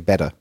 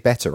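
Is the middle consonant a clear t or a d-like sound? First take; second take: d-like; clear t. First: The middle consonant sounds like a soft d. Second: The middle consonant is a crisp t sound. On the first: This is how the speaker says it now. "I have actually changed my T's to D's. I say better" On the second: This is the speaker's original way of saying it. "I don't say better"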